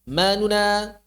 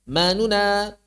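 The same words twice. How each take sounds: Both takes have the same delivery.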